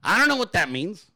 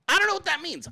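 First: Said in the usual way. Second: Much higher, baffled repeat; mock baffled. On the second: Shown as a demonstration. Repeating the phrase in a high baffled voice. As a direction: echo it in a high puzzled voice.

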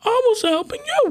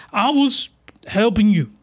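First: Very high squeaky I was helping you; high-pitched repeat. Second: Said in the usual way. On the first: Retold or imitated. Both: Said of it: "She's like".

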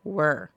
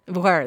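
First: "Were." said /wə˞/ with a falling tune, tried again; "Were." flat /wə˞/, not yet right; wrong take. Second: "Were." said /wɛɹ/, louder, falling and final; "Were." landed as /wɛɹ/, satisfied; corrected take. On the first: To listeners, fixing a word: "Were." as /wə˞/, falling. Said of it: "my vocals and my words were". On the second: To listeners, fixing a word: "Were." as /wɛɹ/, firm. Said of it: "There we go". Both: Shown as a demonstration.

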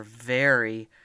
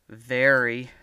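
First: Said in the usual way. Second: Very drawn out, louder; stress on very. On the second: A narrator's reading. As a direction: lean hard on very. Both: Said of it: "very confused".

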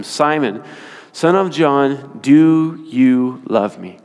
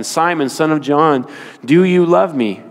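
First: Slow, drawn-out third asking; slow pleading question. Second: Said in the usual way. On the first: Retold or imitated. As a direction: stretch each word as if asking for the last time. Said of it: "A third time". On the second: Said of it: "Jesus repeated the question".

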